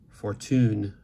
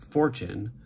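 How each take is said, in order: First: The stress is on the last syllable. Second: The stress is on the first syllable. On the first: This is the French, Romance stress pattern. "stressed right romance, like French versions" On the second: This is the Germanic stress pattern. "stressed left Germanic"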